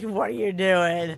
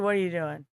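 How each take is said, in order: First: Slow, sleepy, annoyed; drowsy grumble. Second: Low, soft annoyed mutter; quiet grumble. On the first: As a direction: mumble it like you're half asleep. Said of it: "You're like". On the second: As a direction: grumble it under your breath. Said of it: "And you're like". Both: Retold or imitated.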